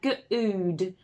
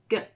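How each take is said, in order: First: The vowel is a long oo sound. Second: The vowel is a short uh sound. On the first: The speaker calls it wrong. "if we tried the long one first, we'd have good" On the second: The speaker calls it right. "that's when you'd try the short one"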